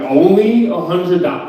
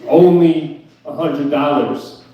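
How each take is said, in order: First: "only" leaned on in disbelief, a hundred dollars?!; incredulous. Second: Slow, drawn-out "Only" mimicking her casualness; mocking repeat. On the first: Real, not acted. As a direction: repeat her phrase like it's absurd. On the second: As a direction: parrot her words back, unimpressed. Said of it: "And I said that to her".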